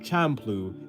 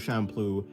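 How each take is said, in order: First: The word begins with a hard ch sound. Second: The word begins with a soft sh sound. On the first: "an actual ch sound" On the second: "like a soft ch"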